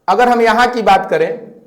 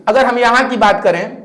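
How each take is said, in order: Both takes have the same delivery.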